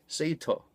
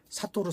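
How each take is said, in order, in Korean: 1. 'say-ter'처럼 들려요. 'ay' 모음이에요. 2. 'sa-to-ru'처럼 들려요. 열린 'a'예요. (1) "세이터 혹은 세터라고 하면 되는데" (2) "자꾸 이제 리뷰하는 분들이 사토루 사토루라고 해서"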